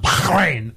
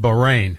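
First: Bahrain with a harsh throat-clearing kh in the middle; guttural Bahrain. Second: Said in the usual way. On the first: Shown as a demonstration. Co-host mimics the reporter's pronunciation, overdone guttural Bahrain. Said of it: "why are you doing that?". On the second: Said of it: "not Bahrain".

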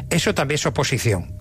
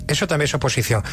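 The two takes are said the same way.

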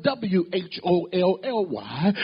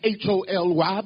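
First: W H O L L Y, each letter drawn out to set it apart; spelled out slowly. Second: H O L Y, letters called out one by one; spelled out letter by letter. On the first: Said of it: "not H O L Y, but". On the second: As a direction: spell H O L Y, each letter separately. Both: Shown as a demonstration.

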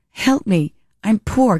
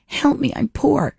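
First: Light mock plea; lightly voiced Bridesmaids lady; quoting Bridesmaids line. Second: Higher, hammed-up whimper of a plea; mock pitiful plea. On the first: Quoting the poor airplane lady from Bridesmaids, mock plea. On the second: Poor lady begging on the airplane, higher mock plea. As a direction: play the poor lady being kicked out of first class. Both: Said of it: "Like the lady on the airplane in Bridesmaids".

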